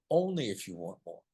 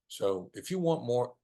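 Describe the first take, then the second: First: Only leaned on gently; stress on only. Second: Said in the usual way. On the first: Shown as a demonstration. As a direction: put the weight on "only".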